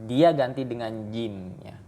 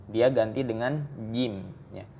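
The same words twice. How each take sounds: The two takes are said the same way.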